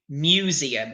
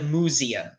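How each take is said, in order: First: The first syllable sounds like 'mew'. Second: The first syllable sounds like 'moo'. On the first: The speaker calls it right. "So it's like mu" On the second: The speaker calls it wrong. "we don't go moo like oo"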